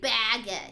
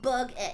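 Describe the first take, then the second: First: The first syllable sounds like 'bag'. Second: The first syllable sounds like 'bug'. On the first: The speaker calls it right. "It's like baguette" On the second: The speaker calls it wrong. "It's not like bug it"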